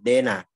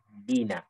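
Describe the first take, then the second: First: The first vowel sounds too thin, like e. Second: The first vowel sounds like a clear i. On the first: The speaker calls it wrong. "terlalu tipis sehingga dia malah mengarah kepada imalah" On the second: The speaker calls it right. "Yang benar adalah kasroh i"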